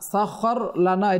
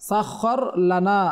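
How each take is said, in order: No difference in how they are said.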